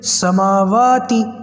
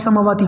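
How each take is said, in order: First: The vowel after the m is long. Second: The vowel after the m is short. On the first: The speaker calls it right. "मीम खड़ा ज़बर मा" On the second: The speaker calls it wrong. "मीम की आवाज़ को लंबा नहीं करते"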